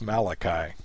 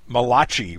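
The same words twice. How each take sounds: First: The last consonant is a hard k sound. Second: The last consonant is a soft ch sound. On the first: The speaker calls it right. "rather than the hard K" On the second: The speaker calls it wrong. "mispronouncing his name with the CH sound"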